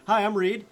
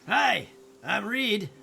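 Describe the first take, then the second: First: It is said in a natural everyday voice. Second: It is said in a put-on character voice. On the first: The speaker calls it right. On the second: The speaker calls it wrong.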